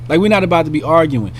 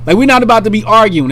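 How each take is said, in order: First: Said in the usual way. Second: Loud, fast and firm; fast, loud stress on not; emphatic. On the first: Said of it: "repeat of line 40". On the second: Shown as a demonstration. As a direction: hit the word not hard. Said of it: "repeats line louder".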